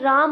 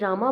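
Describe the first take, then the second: First: The name ends on the consonant m. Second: The name ends with a final a vowel. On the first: "कई राम बोलते हैं" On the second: "कई रामा बोलते हैं"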